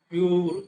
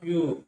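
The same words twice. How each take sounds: First: The final r sound is pronounced. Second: The final r sound is left silent. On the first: The speaker calls it wrong. "అక్కడ ఆర్ అని చెప్పేసి పలకం అనమాట. ప్యూర్ అని పలకం" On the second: The speaker calls it right. "ఇక్కడ ప్యూర్ అంతే"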